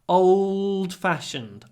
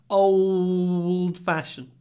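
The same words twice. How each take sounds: Both takes have the same delivery.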